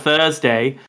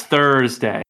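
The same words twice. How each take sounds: First: Thursday with the R dropped, Australian-style; non-rhotic R. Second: Thursday with a strong, sounded R; hard American R. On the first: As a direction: leave the R silent in Thursday. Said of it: "instead of Thursday". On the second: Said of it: "hit the hard R". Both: Retold or imitated.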